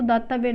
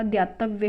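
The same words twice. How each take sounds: First: दातव्य opening on plain daa; incorrect form. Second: द्यातव्य opening on dyaa; correct form. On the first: Teacher rejecting the word, दातव्य without y after d. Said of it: "दातव्य नहीं होता". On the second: Teacher giving the correction, द्यातव्य with dy. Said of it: "द्यातव्य होता है". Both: Shown as a demonstration.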